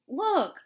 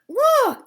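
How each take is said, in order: First: Excited call. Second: Shrill excited shout; loud high cry. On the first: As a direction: call out to the crowd. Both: A narrator's reading. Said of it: "they cried".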